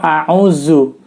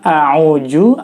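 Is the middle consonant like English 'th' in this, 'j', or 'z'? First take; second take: z; j. First: The middle consonant is a 'z' sound. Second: The middle consonant is a 'j' sound. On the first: "atau a'uzu" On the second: "bukan a'uju"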